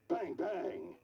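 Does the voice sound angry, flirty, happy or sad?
angry. It is said in an angry tone.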